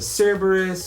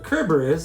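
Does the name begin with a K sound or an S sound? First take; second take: S sound; K sound. First: The name begins with a soft S sound. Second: The name begins with a hard K sound.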